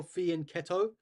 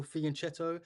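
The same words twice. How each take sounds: First: "fianchetto" slowly, with ch said as k; "fianchetto" with a k, rising at the end; hard "k" pronunciation. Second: "fianchetto" slowly, with ch as in chess; "fianchetto" said with a ch sound; soft "ch" pronunciation. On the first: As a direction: say "fianchetto" as fee-an-KET-o. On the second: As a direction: say "fianchetto" as fee-an-CHET-o. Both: Shown as a demonstration. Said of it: "how do you guys pronounce it".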